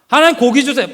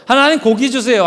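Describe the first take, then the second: First: Higher, louder whiny plea; begging again. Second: Whiny pleading, a touch louder; begging for meat. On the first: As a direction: nag harder than the first. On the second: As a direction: nag God like a child. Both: Acted. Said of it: "계속 졸르기 시작했어요".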